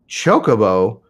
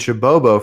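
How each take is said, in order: First: The second syllable starts with a k sound. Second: The second syllable starts with a b sound. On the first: The speaker calls it right. "what? Chocobo" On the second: The speaker calls it wrong. "I've been saying Chabobo for years"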